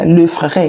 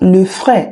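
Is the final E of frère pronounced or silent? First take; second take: pronounced; silent. First: The final E of frère is pronounced. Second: The final E of frère is silent. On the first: The speaker calls it wrong. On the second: The speaker calls it right.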